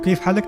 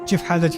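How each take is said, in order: First: It is said in standard Arabic with k sounds. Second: It is said in Palestinian village dialect with ch sounds. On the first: "वो कैफ हालक नहीं कहते" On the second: "किसी फलाही से पूछूंगा चिफ हालच"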